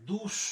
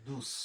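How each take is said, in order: First: দুস with a hushing sh ending; unused pronunciation. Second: দুস with a hissed s ending; correct pronunciation. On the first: Teacher shows learners the form not used, hushing দুস. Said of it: "তো উচ্চারণ করে না". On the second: Teacher shows learners the form we say, hissed দুস. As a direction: end দুস on a clean "s". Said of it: "বলি দুস". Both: Shown as a demonstration.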